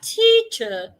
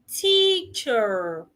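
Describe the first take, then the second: First: The final R sound is not pronounced. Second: The final R sound is clearly pronounced. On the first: "In standard British, do not pronounce the R" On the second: "In standard American, please pronounce the R"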